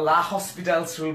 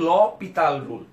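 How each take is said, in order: First: It starts with 'la' and has 'hospital'. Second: It starts with 'lo' and has no 's'. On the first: The speaker calls it wrong. "অনেকে এল হসপিটালস rule অথবা লা হসপিটালস rule বলে থাকে, আসলে কিন্তু সেটা সঠিক উচ্চারণ না" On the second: The speaker calls it right. "এর উচ্চারণ হচ্ছে ল পিতাল রুল"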